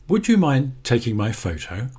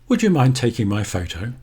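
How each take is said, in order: The two takes are said the same way.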